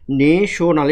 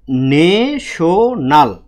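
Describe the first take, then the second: First: Said in the usual way. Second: ন্যাশনাল very slowly stretched as ne, sho, nal; syllable by syllable. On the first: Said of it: "কি লিখলাম". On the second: Shown as a demonstration. Teacher shows the class its syllables, ন্যাশনাল stretched apart. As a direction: draw out each syllable of ন্যাশনাল. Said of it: "একটু fast পড়বো এই যে জায়গাগুলা".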